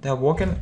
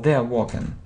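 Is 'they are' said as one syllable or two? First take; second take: one; two. First: 'They are' is run together into one syllable. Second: 'They are' is said as two separate syllables. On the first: "short forms in speaking" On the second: "Or you can say they are"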